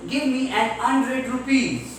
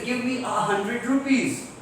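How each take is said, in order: First: HUNDRED as 'undred after an; dropped h. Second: HUNDRED with its h pronounced; sounded h. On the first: Retold or imitated. Teacher imitating the Britishers' speech, dropped h in hundred. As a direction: leave the h off hundred. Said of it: "used to avoid pronouncing the h sound". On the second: Shown as a demonstration. Teacher gives the sentence they had to say, h sounded in hundred. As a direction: say a hundred with an audible h. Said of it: "If they have to say".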